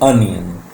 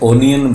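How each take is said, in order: First: The first vowel is an unrounded uh sound. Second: The first vowel is a rounded o sound. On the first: The speaker calls it right. "This is अनियन ओ sound अ sound को produce करेगी" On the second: The speaker calls it wrong. "इसे ओनियन बोलेंगे no"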